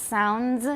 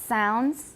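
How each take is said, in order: Both takes have the same delivery.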